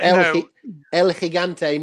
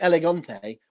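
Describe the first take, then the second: First: The name is said with the 'gi' syllable. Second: The name is said without the 'gi' syllable. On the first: It means the giant. The speaker calls it right. "El Gigante, meaning the giant" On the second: It sounds like the Spanish word for elegant. The speaker calls it wrong. "never said right. They called him Elegante"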